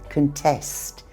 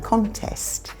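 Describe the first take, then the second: First: The stress is on the last syllable. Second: The stress is on the first syllable. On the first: It is a verb meaning to challenge results. "The stress is on the last syllable" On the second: It is a noun meaning a competition. "You probably know the noun"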